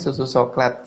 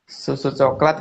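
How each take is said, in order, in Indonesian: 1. Coklat diawali dengan bunyi s. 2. Coklat diawali dengan bunyi ch.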